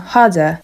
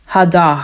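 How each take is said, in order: First: Said in the usual way. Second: "harder" ending in a broad open a; "harder" as "hada", no r, a at the end; Cockney harder. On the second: Shown as a demonstration. Teacher demonstrates Cockney "harder" for students. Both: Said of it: "musi być takie a".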